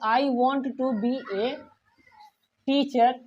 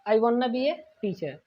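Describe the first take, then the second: First: The words 'want to' are said in full. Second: The words 'want to' are reduced to 'wanna'.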